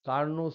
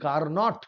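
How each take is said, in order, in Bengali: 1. শব্দটি একটি স্বরধ্বনি দিয়ে শেষ হয়, কোনো t নেই। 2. শব্দটি একটি স্পষ্ট t ধ্বনি দিয়ে শেষ হয়।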